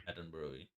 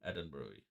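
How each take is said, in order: The two takes are said the same way.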